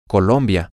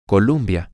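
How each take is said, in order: First: The second syllable has an O vowel. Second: The second syllable has a U vowel. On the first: The speaker calls it right. "si lo dices con el sonido O" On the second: The speaker calls it wrong. "en lugar de la UM"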